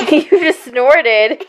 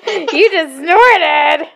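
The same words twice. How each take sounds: First: Laughing while teasing. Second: Very slow and higher, stretched teasing; drawn-out teasing. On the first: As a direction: giggle through the words. Laughing at child's snort. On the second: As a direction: stretch every word out playfully. Teasing child repeats. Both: Real, not acted.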